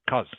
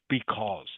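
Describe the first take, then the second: First: The word is cut short to one syllable. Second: The word is said in full, with two syllables. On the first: This is a very casual way of speaking. The speaker calls it wrong. "It is too informal to say cuz" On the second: This is the formal form suited to a test. The speaker calls it right. "you should always use because"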